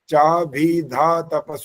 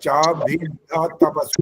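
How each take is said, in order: First: The dh sound is single and light. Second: The dh sound is doubled and forceful. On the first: The speaker calls it wrong. "ऐसे नहीं बोल सकते ... गलत हो गया ये" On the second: The speaker calls it right. "ध आधा है और ध पूरा है। तो वहां पर बल लगना चाहिए"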